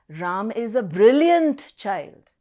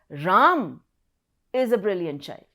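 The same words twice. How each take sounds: First: The stress falls on the word brilliant. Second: The stress falls on the word Ram. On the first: The child is brilliant, not dull. "Now I'm stressing on brilliant" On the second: It is this person and no other who is brilliant. "It is Ram who is a brilliant child"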